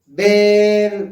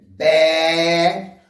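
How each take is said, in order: First: The vowel is closed, said with the mouth narrower. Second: The vowel is open, said with the mouth wide. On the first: "o E é o som fechado" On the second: "com a boca aberta. Então o E tem som aberto"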